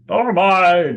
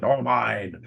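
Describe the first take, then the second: First: Loud, high, drawn-out crowd cry; agreeing bystander. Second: Restrained voice from the crowd; agreeing bystander. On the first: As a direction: pile on as a louder dissenter. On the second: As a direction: chime in as one of the dissenters. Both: Acted. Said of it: "And others are agreeing".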